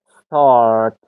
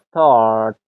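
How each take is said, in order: No difference in how they are said.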